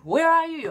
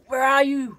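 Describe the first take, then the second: First: Higher, more insistent nagging mimic; pestering ex, pushed higher. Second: High, nagging mimic of the ex; pestering ex. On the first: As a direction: repeat it needier and higher. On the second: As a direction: whine it like a needy ex. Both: Ex on phone, pestering.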